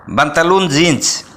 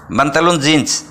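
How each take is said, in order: Both takes have the same delivery.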